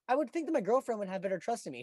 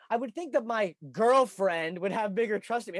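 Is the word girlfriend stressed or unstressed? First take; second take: unstressed; stressed. First: The word girlfriend is said without extra emphasis. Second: The word girlfriend gets heavy extra emphasis.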